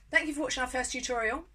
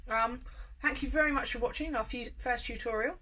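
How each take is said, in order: First: Said in the usual way. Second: Thanks mumbled through a mouthful; chewing while saying thanks; mouth full. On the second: Real, not acted. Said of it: "Sorry, I'm finishing with my mouth full".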